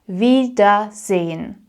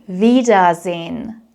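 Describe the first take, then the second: No difference in how they are said.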